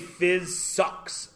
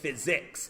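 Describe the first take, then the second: First: The last syllable sounds like 'sucks'. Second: The last syllable sounds like 'six'. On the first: The speaker calls it wrong. "none of us say the word physics properly. We say phys sucks. S U C K S" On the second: The speaker calls it right. "It's not. It's physics"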